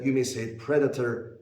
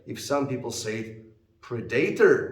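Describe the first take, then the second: First: The stress falls on the usual syllable. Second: The stress falls on an unusual syllable. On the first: The speaker calls it right. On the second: The speaker calls it wrong. "which is not correct, the stress is wrong"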